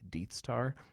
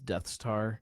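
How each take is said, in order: First: The first word has a long 'ee' vowel. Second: The first word has a short 'eh' vowel. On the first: Others have been heard saying it this way. "I've actually heard his name pronounced as Deeth also" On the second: This is how the speaker usually says it. "I've always pronounced it as Death Star"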